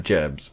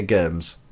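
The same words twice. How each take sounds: First: Said in the usual way. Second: "germs" with a hard k start, like kurms; quirky germs. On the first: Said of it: "instead of germs". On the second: Shown as a demonstration. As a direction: say "germs" as "kurms", hard k sound instead of soft j. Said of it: "I say certain words strangely".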